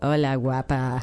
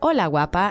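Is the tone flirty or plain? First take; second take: flirty; plain. First: It is said in a flirty tone. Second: It is said in a plain, friendly tone.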